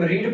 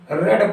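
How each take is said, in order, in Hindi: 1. स्वर 'ee' जैसा लगता है। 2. स्वर 'eh' जैसा लगता है। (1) "पहले फॉर्म में होता है तो इसे हम रीड पढ़ते हैं" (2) "जब सेकेंड फॉर्म आता है तो इसे हम रेड पढ़ने लगते हैं"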